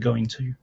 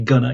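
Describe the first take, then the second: First: Both words are said fully and separately. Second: The words are squeezed into a reduced form. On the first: This is the careful way. "instead of going to" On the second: This is the casual way. "I say gonna"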